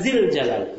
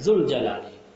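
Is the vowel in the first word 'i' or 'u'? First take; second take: i; u. First: The first word is said with an 'i' vowel. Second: The first word is said with a 'u' vowel. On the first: The speaker calls it wrong. "bukan Dzil Jalali" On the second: The speaker calls it right. "yang Dzul Jalali"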